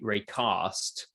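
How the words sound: It is said with a southern English accent. "I'm on the south coast, so I'm more likely to say"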